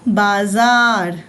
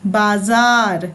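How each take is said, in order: First: बाजार drawn out slowly, with a clear buzzing z; बाजार said as baazaar; nukta z sound. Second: बाजार said slowly, with a clear z where the dot under ज is; बाजार with z, not j; nukta z sound. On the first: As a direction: model बाजार slowly for the class, z and not j. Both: Shown as a demonstration. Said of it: "क्या पढ़ेंगे इसको?".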